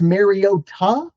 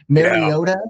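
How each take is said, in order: First: The final syllable is clearly enunciated and emphasized. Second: The final syllable is said lightly, not emphasized.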